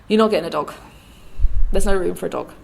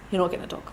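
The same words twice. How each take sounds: First: Imitated dad, louder and insistent; firm refusal. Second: Understated refusal. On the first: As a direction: put your foot down as the dad, louder. Dad refuses more firmly, retold. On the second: Retold or imitated. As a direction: refuse evenly, voicing the dad. Dad's first refusal, retold.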